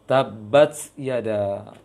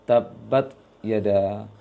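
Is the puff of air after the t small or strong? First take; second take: strong; small. First: The t has a strong burst of air. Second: The t has barely any audible air. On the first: The speaker calls it wrong. "Terlalu besar. maka keliru" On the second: The speaker calls it right. "bisa dikatakan tidak jelas anginnya"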